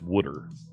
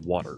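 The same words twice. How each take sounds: First: It is said in a Philadelphia accent. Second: It is said in a general American accent. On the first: "In in Philadelphia, it's it's made from the things that trees are made of" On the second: "Most of the world says water"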